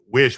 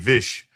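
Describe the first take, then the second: First: The word starts with a W sound. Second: The word starts with a V sound.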